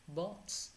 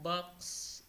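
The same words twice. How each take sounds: First: It is said with a British vowel. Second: It is said with an American vowel. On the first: "which is from British accent" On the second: "box in American"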